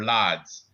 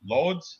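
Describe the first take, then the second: First: Lodz as "lads" with an open "ah"; alternative pronunciation. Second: Lodz as "loads", rising; unsure pronunciation. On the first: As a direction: offer Lodz as "lahdz", falling lower. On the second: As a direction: try Lodz with a long O, as a question. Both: Shown as a demonstration. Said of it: "am I saying that right?".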